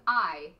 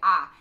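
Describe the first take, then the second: First: The vowel glides like 'eye'. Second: The vowel is a flat 'ah'. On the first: The word begins a sentence. "I'll start a sentence with I" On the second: The word falls in the middle of a sentence. "if I is in the middle of a sentence, I say ah"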